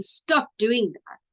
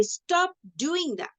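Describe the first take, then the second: First: Said in the usual way. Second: Higher, drawn-out command; raised voice. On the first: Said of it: "It's not that they're saying". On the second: Shown as a demonstration. Showing pupils how a scolder says it, raised voice. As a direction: demonstrate a firm raised voice, slowly. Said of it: "their voice is raised and they say".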